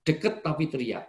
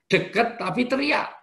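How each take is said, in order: First: Said in the usual way. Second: Yelling though close; mock shout. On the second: Shown as a demonstration. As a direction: shout it, pitched up. Preacher mimics shouting. (teriakan pura-pura)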